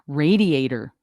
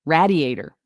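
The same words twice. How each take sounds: First: "Radiator" with ray, ray-dee-ay-ter; pron of radiator. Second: "Radiator" with rad, rad-ee-ay-ter; pron of radiator. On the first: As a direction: open on ray. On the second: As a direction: open on a short rad. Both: Shown as a demonstration. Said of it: "try and pronounce".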